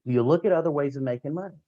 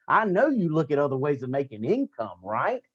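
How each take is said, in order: First: Rising question tune at the end; asked as a question. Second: Falling statement tune, then a light right?; said as a comment. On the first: Coach showing recruits the question form, rising tune. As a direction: ask it like a real question, ending up. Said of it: "don't ask it as a question". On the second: Coach showing recruits the comment form, falling tune. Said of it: "Do it as a comment". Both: Shown as a demonstration.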